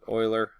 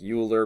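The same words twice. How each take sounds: First: The first syllable sounds like 'oy'. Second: The first syllable sounds like 'you'. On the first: This is how the name is properly said. The speaker calls it right. "you're really supposed to pronounce it Euler" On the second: This is how the spelling suggests it is said. The speaker calls it wrong. "it looks like Euler"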